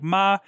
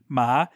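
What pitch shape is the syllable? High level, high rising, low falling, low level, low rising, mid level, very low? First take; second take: high level; high rising. First: The pitch stays high and level. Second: The pitch rises up to a high level. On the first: "a high flat" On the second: "a high rising"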